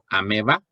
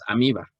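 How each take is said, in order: First: The vowel after the m is an e sound. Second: The vowel after the m is an i sound. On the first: "es validado que puedas decir ameba" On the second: "o que digas amiba"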